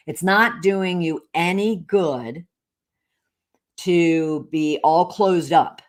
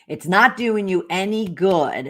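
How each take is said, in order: First: "It's not doing you any good" slow and deliberate; emphatic repeat. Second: Said in the usual way. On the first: Retold or imitated. Repeating the accountant's advice for all to hear, "any good" slow and emphatic. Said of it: "this is what I wanna he-, want all of you to hear". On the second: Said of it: "And she's like".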